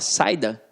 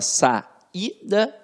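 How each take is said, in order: First: The a and i glide together in one syllable. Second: The i is split off into its own syllable. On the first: The speaker calls it wrong. "você fala saída, ... Não" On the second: The speaker calls it right. "esta vogal fica isolada"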